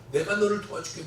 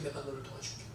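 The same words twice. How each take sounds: First: Said in the usual way. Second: 내가 너를 도와줄게 repeated much softer, almost fading; soft echo. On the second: Retold or imitated. God's promise echoed softly to the missionary. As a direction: let it fade like an echo.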